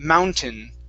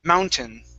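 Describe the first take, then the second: The two takes are said the same way.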